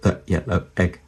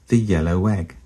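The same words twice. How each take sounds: First: No w sound links yellow to egg. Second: A w sound links yellow to egg. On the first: The speaker calls it wrong. "we don't say the yellow egg" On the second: The speaker calls it right. "We say the yellow egg"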